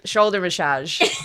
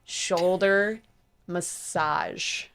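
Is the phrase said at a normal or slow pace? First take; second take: normal; slow. First: The phrase is said at normal speed, stumbling. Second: The phrase is said slowly and carefully. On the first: The speaker calls it wrong. "I can't" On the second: The speaker calls it right. "Yes, I can say it slowly"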